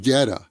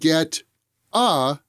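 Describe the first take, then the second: First: The T is said as a soft D. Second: The T is said as a clear T.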